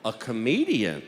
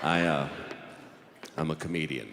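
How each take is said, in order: First: Questioning echo with a sudden pitch jump; incredulous judge. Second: Very low, halting confession; sheepish admission. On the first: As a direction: repeat it in open disbelief. Judge repeats it in disbelief. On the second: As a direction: drop the voice and admit it reluctantly. Reluctant confession to judge. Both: Acted.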